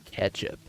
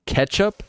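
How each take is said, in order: First: "Ketchup." said low and soft with a falling tune; flat muttered statement. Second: "Ketchup?" asked with a high rising tune; puzzled question. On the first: Gamer conceding the word, low flat statement. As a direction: settle on "Ketchup." quietly, as a final verdict. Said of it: "ketchup is inherently tomato-based". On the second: Gamer testing the foreign word, rising question. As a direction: try out "Ketchup?" as a doubtful question, pitch swooping up. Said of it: "U K say sauce?". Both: Shown as a demonstration.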